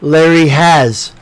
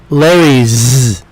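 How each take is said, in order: First: The word has is said as a full syllable. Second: The word has is shortened to an s sound. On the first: "we say Larry has" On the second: "or Larry's. Apostrophe S"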